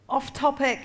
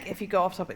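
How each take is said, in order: First: Higher-pitched mock heckle; imitated heckle. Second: Said in the usual way. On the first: Audience catching a comedian straying, imitated heckle. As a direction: call it out like a heckler. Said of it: "the audience are encouraged t".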